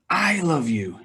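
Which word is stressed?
I. The word 'I' carries the main stress. The speaker loves, unlike another person. "he doesn't"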